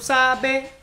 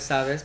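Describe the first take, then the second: First: The s sounds in the word are dropped. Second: The s sounds in the word are pronounced. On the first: "doesn't pronounce their S's" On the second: "Instead of sabes"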